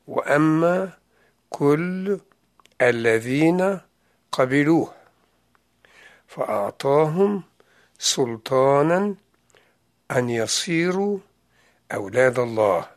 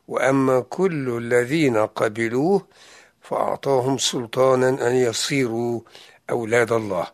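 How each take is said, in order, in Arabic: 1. تُقرأ الآية ببطء. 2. تُقرأ الآية بسرعة عادية.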